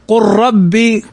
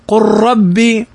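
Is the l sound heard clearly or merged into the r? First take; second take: merged; merged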